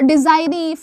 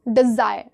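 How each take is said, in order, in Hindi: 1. शब्द एक अतिरिक्त अंतिम स्वर ध्वनि के साथ खत्म होता है। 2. शब्द बिना अंतिम स्वर ध्वनि के खत्म होता है। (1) "कहाँ पर डिजायरी फायरी पढ़ते हो क्या? नहीं पढ़ते हो" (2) "ई साइलेंट ही तो करते हो आप"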